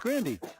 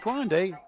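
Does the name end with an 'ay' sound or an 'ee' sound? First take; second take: ee; ay. First: The name ends with an 'ee' sound. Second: The name ends with an 'ay' sound. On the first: The speaker calls it right. "it's Grandy. Grand with a Y" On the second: The speaker calls it wrong. "It's not Grande"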